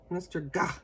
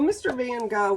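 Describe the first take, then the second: First: Gogh is said the Dutch way, like Gah. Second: Gogh is said the American way, like go.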